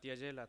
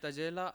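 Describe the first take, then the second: First: The word begins with a 'ty' cluster. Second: The word begins with a plain 't' sound. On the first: This is the standard, pure form. "શુદ્ધ ઉચ્ચાર ત્યજેલા થાય" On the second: This is the form used in the song. "આ ગીતમાં મેં તજેલા એવું word use કર્યો છે"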